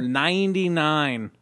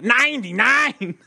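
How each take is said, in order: First: It is said in the speaker's ordinary accent. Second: It is said with a put-on German accent.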